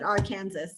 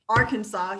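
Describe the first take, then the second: First: The ending sounds like the word Kansas. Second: The ending sounds like the word saw. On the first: The speaker calls it wrong. "You do not pronounce it Arkansas" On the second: The speaker calls it right. "It is Arkansas"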